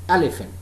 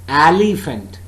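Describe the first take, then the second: First: The stress is on the first syllable. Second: The stress is not on the first syllable. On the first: The speaker calls it right. "Stressed, unstressed, unstressed" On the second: The speaker calls it wrong. "It's not elephant"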